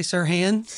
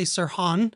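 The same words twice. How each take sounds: First: Sirhan said "sir-HAN"; Sirhan, Oklahoma style, rhyming with "man"; Oklahoma pronunciation. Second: Sirhan said "sir-HAHN"; Sirhan, second syllable rhyming with "on"; non-Oklahoma pronunciation. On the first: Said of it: "this is an Oklahoma accent". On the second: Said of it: "I don't say Sirhan". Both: Shown as a demonstration.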